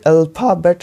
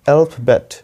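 First: The stress is not on the first syllable. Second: The stress is on the first syllable. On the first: The speaker calls it wrong. "ये alphabet नहीं होता है" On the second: The speaker calls it right. "जो stress होता है ना ये हमारे ए पे होता है, पहले वाले पे"

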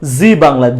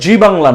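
First: It starts with a buzzing z sound. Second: It starts with a j sound. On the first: The speaker calls it right. "সেটা কিন্তু জি Bangla" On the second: The speaker calls it wrong. "জি বাংলা না, জি বাংলা বললে ভুল হবে"

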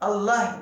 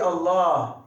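First: The vowel after the l is short. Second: The vowel after the l is lengthened. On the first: The speaker calls it wrong. "değil" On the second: The speaker calls it right. "Böyle uzatma var"

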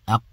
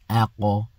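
First: The final q stops flat with no echo. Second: The final q is struck with a slight bounce. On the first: The speaker calls it wrong. "you don't pronounce it like aq" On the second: The speaker calls it right. "you've got to hit it a little bit. Okay, like this"

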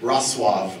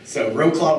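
First: The name is said with a Polish pronunciation. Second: The name is said with an English pronunciation. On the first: "would be the Polish pronunciation" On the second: "would be an English pronunciation"

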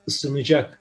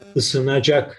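First: The vowel is narrowed. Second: The vowel is pronounced full, as spelled. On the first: "Harf daralması kuralı gereği ısınacak şeklinde telaffuz ederiz" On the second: "şeklinde yazılır"

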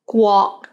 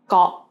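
First: The word begins with a rounded gw sound. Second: The word begins with a plain g sound. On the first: It means country. The speaker calls it right. "Guo means country" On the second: The meaning changes and causes confusion. The speaker calls it wrong. "someone with lazy tongue would pronounce it as Guo"

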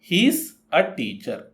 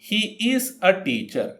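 First: 'He is' is joined into one word, he's. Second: 'He is' is said as two full words.

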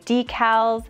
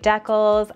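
First: It is said the way people outside Western Canada say it. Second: It is said the Western Canadian way.

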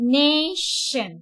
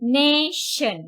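First: The middle consonant is a hushing 'sh' sound. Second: The middle consonant is a hushing 'sh' sound.

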